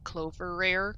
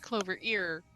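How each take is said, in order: First: The last part is said as 'rare'. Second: The last part is said as 'ear'. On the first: The speaker calls it wrong. "I misread uh the name wrong and I read it as" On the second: The speaker calls it right. "But then I realized, wait, no, it's"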